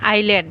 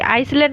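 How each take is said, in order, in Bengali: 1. শব্দটিতে S ধ্বনি উচ্চারিত হয় না। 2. শব্দটিতে S ধ্বনি উচ্চারিত হয়। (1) "এছটো চাইলেণ্ট" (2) "আইচলেণ্ড নহয়"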